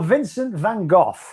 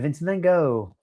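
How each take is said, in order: First: The name is said in a non-American way. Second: The name is said the American way.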